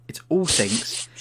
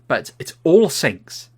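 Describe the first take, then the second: First: Whispered, stunned echo; whispered repeat. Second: Drawn out, louder, leaning on all; slow emphatic disbelief. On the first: Repeating it to friends in a hushed, stunned whisper. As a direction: breathe the words like a secret. Disbelief at a room of sinks. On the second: Telling friends about the dream bathroom, slow emphatic disbelief. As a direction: stretch it out, stunned at the sinks. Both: Pretend.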